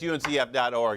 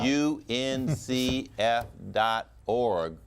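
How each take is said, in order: First: It is said fast. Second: It is said slowly.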